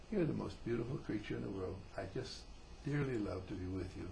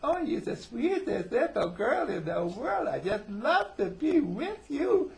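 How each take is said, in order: First: Soft, low, tender declaration; sincere. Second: Loud, high, slow mock baby voice; baby talk. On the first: Acted. Man with his wife in his arms, sincere and tender. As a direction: say it sincerely and softly, as an adult. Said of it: "a very sincere kiss". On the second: Husband to wife as if to a little girl, mock baby talk. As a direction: gush it in drawn-out, hammed-up baby talk. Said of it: "baby talk like that".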